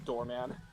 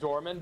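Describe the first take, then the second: First: The name is said like 'door man'. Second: The name is said as 'Dorman'. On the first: This is the speaker's own chosen pronunciation. The speaker calls it wrong. "I'm calling him Doorman" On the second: This is the official pronunciation. The speaker calls it right. "I know it's pronounced Dorman"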